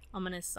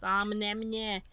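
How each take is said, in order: First: Said in the usual way. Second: Mock ominous. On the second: Shown as a demonstration. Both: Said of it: "this music getting ominous".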